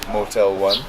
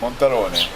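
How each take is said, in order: First: The name is said in plain English. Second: The name is said in a mock continental accent. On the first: This is how some other people say it. The speaker calls it wrong. "Some pronounce it Motel One" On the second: This is how it is said on the continent. The speaker calls it right. "When you're on the continent, you know to pronounce it Montarone"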